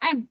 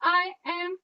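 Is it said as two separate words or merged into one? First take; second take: merged; separate. First: It is said merged into one syllable. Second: It is said as two separate words. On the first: The speaker calls it right. "ह्याला एकत्रित म्हणायचं एम" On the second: The speaker calls it wrong. "आय एम असं न म्हणता"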